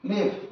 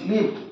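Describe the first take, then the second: The two takes are said the same way.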